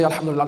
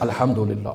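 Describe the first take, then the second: First: It is said fast and blurred. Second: It is said slowly and fully.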